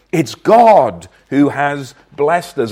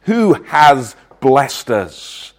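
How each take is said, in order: First: "God" hit hard, the rest slow; stress on God. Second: Said in the usual way. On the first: Shown as a demonstration. Preacher stressing "God" to the congregation, slow and firm. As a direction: lean on "God", slowly and firmly.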